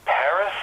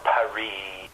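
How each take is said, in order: First: "Paris" with the final S sounded; anglicized "Paris", stressed on the first syllable; English pronunciation. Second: "Paris" with a silent S, ending "ee"; French-style "Paris", drawn out on the last syllable; French pronunciation. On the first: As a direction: say Paris as PARR-iss. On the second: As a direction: say Paris as pa-REE. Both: Shown as a demonstration. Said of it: "do you say".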